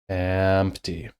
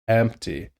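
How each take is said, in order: First: The word starts lightly, with an easy flow. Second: The word starts forced, with a pushed, tense onset. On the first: The speaker calls it right. "the lighter we are, the easier we are, the less tension there is" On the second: The speaker calls it wrong. "If we're pushing harder, then it'll sound like this. That's too much pushing"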